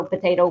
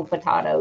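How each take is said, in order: First: Potato with a long A in the middle; potato rhyming with "tomato", American way; potato, first variant. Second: Potato with an open "ah" in the middle; potato the "po-tah-to" way; potato, second variant. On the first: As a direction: say potato as "puh-TAY-toh". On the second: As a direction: say potato as "puh-TAH-toh". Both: Shown as a demonstration. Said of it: "you wanna say it".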